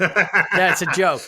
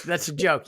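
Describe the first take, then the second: First: Laughing it out slowly and loudly. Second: Said in the usual way. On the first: Real, not acted. Host laughing at his own pun to his co-host. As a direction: laugh through the punchline. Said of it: "That's a joke. You get it?". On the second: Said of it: "You get it?".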